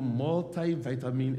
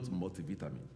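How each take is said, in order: First: It is said in an American accent. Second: It is said in a British accent.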